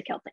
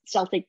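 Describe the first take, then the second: First: Celtic with a K at the start; hard-C Celtic. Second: Celtic with an initial S; soft-C Celtic. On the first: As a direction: say Celtic as "KEL-tik". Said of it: "most people say Celtic". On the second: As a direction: say Celtic as "SEL-tik". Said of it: "I was brought up with Celtic". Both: Shown as a demonstration.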